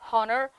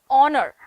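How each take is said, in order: First: The h is pronounced. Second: The h is silent. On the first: The speaker calls it wrong. "we start saying honor" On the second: The speaker calls it right. "This is how you pronounce it in English"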